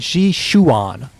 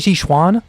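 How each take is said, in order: First: The name is said with three syllables. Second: The name is said with two syllables. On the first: "She put a chu in there" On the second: "I say Jishuan"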